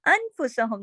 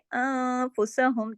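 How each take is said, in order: First: The n is pronounced fully and clearly. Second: The n is hidden into a nasal sound. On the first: The speaker calls it wrong. "अनफुसहुम नहीं कहा" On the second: The speaker calls it right. "ये इसके अंदर इख्फा हो रहा है"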